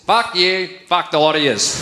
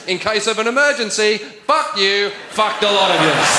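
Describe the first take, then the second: First: Blunt Australian send-off, drawn from everyday speech; Australian slang. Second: Lightly voiced flight-attendant announcement turned rude; mock safety demonstration. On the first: Shown as a demonstration. Comic translates an Australian sign for the audience, blunt Australian. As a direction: say it as a broad Australian insult. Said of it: "a phrase that is only used in the Australian spoken language".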